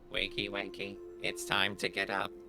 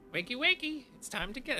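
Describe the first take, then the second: First: It is said in a robotic voice. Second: It is said in a natural voice.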